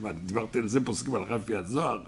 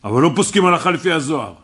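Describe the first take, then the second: First: Softer, fast innocent asking-back; incredulous question. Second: Loud, fast indignant objection; angry outburst. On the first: Rabbi retelling his own innocent reply, soft incredulous question. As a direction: play it down as a harmless, surprised question. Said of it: "אמרתי". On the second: Student bursting into the rabbi's lesson, loud angry protest. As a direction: blurt it out like an offended student cutting in. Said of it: "אז הוא התפרץ". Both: Retold or imitated.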